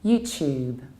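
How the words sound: It is said in a British accent. "in British accent it's"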